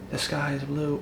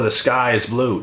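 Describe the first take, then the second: First: Said softly and high, sweetly; soft high sweet take of a plain fact. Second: Firm and louder, punching sky; louder blunt take of the same fact; harsher, louder. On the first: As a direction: say it nice and gentle. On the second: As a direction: say it like you mean it. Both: Shown as a demonstration. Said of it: "Does it change if I say".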